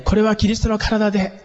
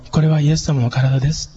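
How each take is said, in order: First: Raised, projected voice to reach the whole hall; projected loudly. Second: Gentle. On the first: Pastor projecting to the congregation without a mic, loudly. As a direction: push it out so everyone hears. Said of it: "聞こえるようにしようとすると". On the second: Pastor wishing to speak tenderly at communion, gently. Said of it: "言いたいっていう心がありながらも". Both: Shown as a demonstration.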